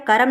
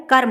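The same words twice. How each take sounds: First: कर्म in two syllables, "ka-ram"; wrong pronunciation. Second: Said in the usual way. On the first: Shown as a demonstration. Teacher shows the misspelling, said "karam". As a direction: add a vowel between r and m in कर्म. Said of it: "कर्म नहीं होता है". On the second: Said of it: "कर्म होता है".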